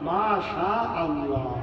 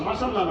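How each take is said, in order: First: The two words are kept clearly apart. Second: The words run together into one word. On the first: It means it happened as God willed. The speaker calls it right. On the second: It sounds like a word for spices. The speaker calls it wrong. "মাশাল্লাহ না"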